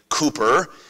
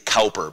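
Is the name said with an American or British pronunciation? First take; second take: British; American. First: The name is said the British way. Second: The name is said the American way.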